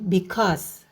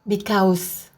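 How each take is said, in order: First: The second syllable has a single 'o' vowel. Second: The second syllable has a gliding 'a-u' vowel. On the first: The speaker calls it right. "tapi dibaca sebagai satu bunyi" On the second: The speaker calls it wrong. "Jadi bukan because. Bukan dibaca sebagai A U"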